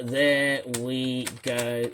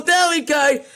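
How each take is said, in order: First: Said in the usual way. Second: High, loud quoted phrase; angry mocking quote. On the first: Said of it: "he said". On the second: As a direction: shout the phrase you can't stand. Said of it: "would not say".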